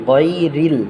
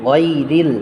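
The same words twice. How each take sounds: Both takes have the same delivery.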